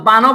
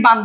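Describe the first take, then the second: First: বানও said as "bano", ending on o; বানও with an open last syllable; final vowel added. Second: বান said as "ban", stopping on the n; বান as one closed syllable; closed final n. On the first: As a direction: add an o after the n in বানও. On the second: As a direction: end বান on n with no vowel. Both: Shown as a demonstration. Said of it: "বানও বলছো নাকি বান বলছো?".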